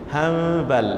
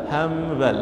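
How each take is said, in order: Both takes have the same delivery.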